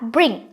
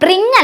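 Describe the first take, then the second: First: The r sound is light and quick. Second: The r sound is heavy and drawn out. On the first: The speaker calls it right. "ആറിന് അധികം stress ചെയ്യേണ്ട" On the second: The speaker calls it wrong. "ബ്രിങ് അല്ല"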